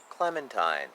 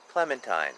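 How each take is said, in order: Both takes have the same delivery.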